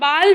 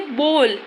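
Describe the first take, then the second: First: The vowel sounds like a long 'aa'. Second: The vowel sounds like an 'o'. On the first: The speaker calls it wrong. "अभी हम बाल भी बोल सकते थे but no" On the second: The speaker calls it right. "अब इसे क्या प्रोनाउंसिएशन करेंगे, बोल"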